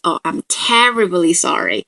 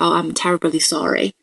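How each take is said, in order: First: It sounds sarcastic, with shifted sentence stress. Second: It sounds like a sincere, plain apology. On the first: The speaker mocks the other person for staying angry. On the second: The speaker genuinely apologizes.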